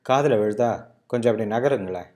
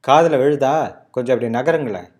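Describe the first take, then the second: First: It sounds mildly irritated. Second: It sounds more aggressive.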